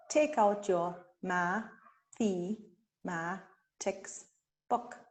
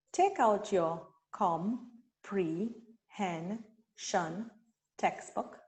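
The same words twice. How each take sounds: First: Ma, the, ma said as separate slow beats; syllables split apart. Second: Com, pre, hen, shun said as separate slow beats; syllables split apart. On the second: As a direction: break comprehension into slow syllables. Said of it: "So you can say". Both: Shown as a demonstration. Teacher blending syllables for students, slow and split.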